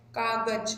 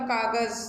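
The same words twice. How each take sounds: First: कागज with a plain ज, as in "jab"; plain ज sound. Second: कागज ending in a buzzing English z; nukta z sound. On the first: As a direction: say कागज ending in an ordinary ज. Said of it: "कागज बोले तो ज की आवाज़ आ रही है". (कागज में साधारण ज की आवाज़) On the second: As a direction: say कागज with the final ज turned into z. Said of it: "जेड की साउंड में जा रहा है". (कागज़ में ज़ की आवाज़, अंग्रेज़ी z जैसी) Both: Shown as a demonstration.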